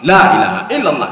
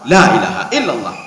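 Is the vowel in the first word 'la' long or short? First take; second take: long; long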